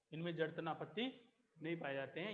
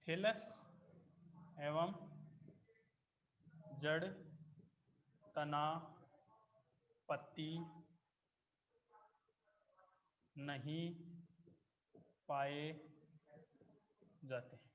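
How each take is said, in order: First: Said in the usual way. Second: Word by word with long pauses; spaced-out dictation to the class; slow dictation. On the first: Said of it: "repeats dictated line normally". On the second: Shown as a demonstration. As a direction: dictate each word slowly for notes. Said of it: "teacher dictating notes".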